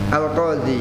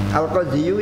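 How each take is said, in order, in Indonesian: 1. Kata ini berakhir dengan bunyi 'ee' biasa. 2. Kata ini berakhir dengan bunyi 'yu' yang ditambahkan.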